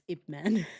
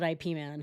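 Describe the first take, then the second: First: Ip is said as one short word. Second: Ip is spelled out as two letters. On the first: The speaker calls it right. "It's Ip Man" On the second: The speaker calls it wrong. "I would call it I P Man"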